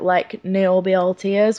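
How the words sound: 'Niobe all tears' runs together as one phrase. It sounds as though a describing word comes before 'tears'. The speaker calls it wrong. "It made it sound like there was like an adjective there"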